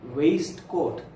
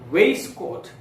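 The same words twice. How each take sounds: First: Every written letter in the word is sounded. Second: One of the written letters is left silent. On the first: The speaker calls it wrong. "not waistcoat" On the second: The speaker calls it right. "This should be waistcoat"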